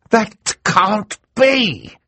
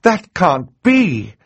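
First: Very slow, high outcry of disbelief; Mister Poe's protest. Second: High, slow cry of disbelief; shocked cry. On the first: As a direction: protest it, stretched out. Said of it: "said a voice from the audience". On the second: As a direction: protest the news, drawn out. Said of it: "Justice Strauss cried". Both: Acted.

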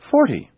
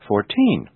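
First: "forty" with FOR high and loud, falling away; stress on first syllable. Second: Put-on "fourteen" with TEEN stressed; stress on last syllable. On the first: Teacher showing which syllable is stressed, "forty" stressed on FOR. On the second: Teacher showing which syllable is stressed, "fourteen" stressed on TEEN. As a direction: lean on the second syllable of "fourteen". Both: Shown as a demonstration. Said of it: "notice the different syllables being stressed".

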